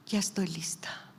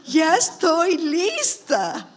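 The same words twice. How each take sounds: First: Softly retold surrender, in the usual pitch; resigned prayer. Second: Loud, high, long-drawn-out mock surrender; mock self-quote. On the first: Sick mother praying to the Lord, quiet resignation. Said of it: "Entonces me puse a llorar". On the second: Preacher mocking her own readiness to go, loud exaggerated drawl. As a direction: stretch every word in exaggerated self-mockery.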